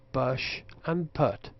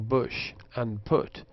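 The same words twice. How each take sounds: First: The vowels are open and central, as in cup. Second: The vowels are rounded and close, as in foot. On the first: The speaker calls it wrong. "they pronounce bush and put" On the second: The speaker calls it right. "instead of pronouncing bush and put"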